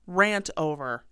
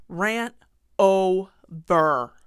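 First: Said in the usual way. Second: Drawn-out, louder "over" to end the rant. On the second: Real, not acted. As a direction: close the rant with a loud, stretched "over".

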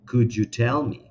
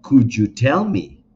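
First: Said in the usual way. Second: Louder, slow and deliberate "Could you tell me"; teacher drilling the phrase loudly; emphatic model phrase. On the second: Shown as a demonstration. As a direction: stress "tell" strongly, slow and loud. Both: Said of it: "necesito que armes esa misma pregunta".

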